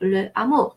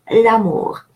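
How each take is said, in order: First: The article keeps its vowel as a separate syllable. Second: The article's vowel drops, linking into one word. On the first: The speaker calls it wrong. "I would write le and then amour" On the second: The speaker calls it right. "they are pronounced as if it was one word"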